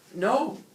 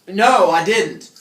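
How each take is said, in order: First: It is said quietly. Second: It is said loudly, almost shouted.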